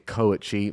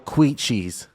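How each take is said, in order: First: The word begins with a 'koh' sound. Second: The word begins with a 'kw' sound. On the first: The speaker calls it right. "It's actually a koichi" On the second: The speaker calls it wrong. "mispronounced by Gordon himself"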